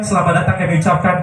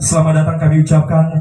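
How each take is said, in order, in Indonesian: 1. Suaranya datar dan tidak dibentuk. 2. Suaranya dibentuk, penuh, dan bergema. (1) "Itu saya membawa acara" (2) "Kalau saya olah vokalnya begini"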